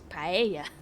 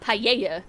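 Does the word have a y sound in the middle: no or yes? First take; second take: no; yes. First: The middle has no y sound. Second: The middle has a y sound. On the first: The speaker calls it right. "It's paella, There's no extra Y or double L there" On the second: The speaker calls it wrong. "not paella"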